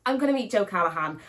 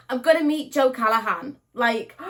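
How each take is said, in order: First: Said in the usual way. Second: Higher, louder fangirl repeat; squealing excitement. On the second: Real, not acted. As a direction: burst with excitement.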